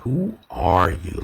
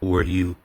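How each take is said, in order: First: The word are is emphasized with an inflection. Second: No special emphasis falls on the word are. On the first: A request to reveal the deeper layers of oneself. "You hear that inflection of the R" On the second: A simple request for a name and basic details.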